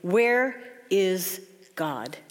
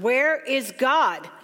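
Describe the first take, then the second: First: It is said sternly, at a moderate volume. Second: It is said more sternly and firmly.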